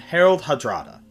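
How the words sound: The name is pronounced with English sounds. "in the English pronunciation"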